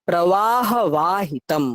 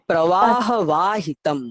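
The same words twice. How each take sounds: Both takes have the same delivery.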